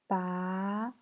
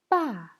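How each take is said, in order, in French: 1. Le ton monte du milieu vers le haut. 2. Le ton tombe brusquement du haut vers le bas. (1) "Deuxième temps" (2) "Quatrième temps"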